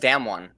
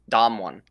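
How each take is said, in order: First: The first vowel sounds like the one in 'dam'. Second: The first vowel sounds like the one in 'dom'. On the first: The speaker calls it wrong. "Everyone says Dam one" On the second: The speaker calls it right. "but it's really it's Dom one"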